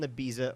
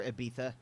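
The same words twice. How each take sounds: First: Ibiza said ih-BEE-zuh; Ibiza, middle consonant a Z sound. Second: Ibiza said ih-BEE-thuh. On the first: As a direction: say Ibiza with a plain buzzing Z. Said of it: "Ibiza or Ibiza, depending on where you are". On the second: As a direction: say Ibiza with a lisped TH for the Z. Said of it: "I've heard the English say it that way". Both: Shown as a demonstration.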